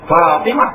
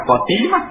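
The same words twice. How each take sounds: First: Fatimah with an open a; teacher giving the right Fatimah; correct Fatimah. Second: Fatimah with an o sound, the mistake; teacher marking Fatimah as wrong. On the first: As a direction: say Fatimah with a clear a. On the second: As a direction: show Fatimah as misread. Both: Shown as a demonstration. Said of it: "bukan Fatimah".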